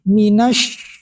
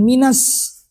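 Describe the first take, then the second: First: The word ends with an sh sound. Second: The word ends with an s sound. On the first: The speaker calls it right. "bukan huruf sin tapi shin" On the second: The speaker calls it wrong. "bukan minas"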